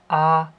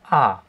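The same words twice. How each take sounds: First: The pitch stays high and level. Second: The pitch falls sharply from high to low. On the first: "Beim ersten Ton ... als wäre es ein konkreter fester Ton" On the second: "fallend, da sind wir beim vierten Ton"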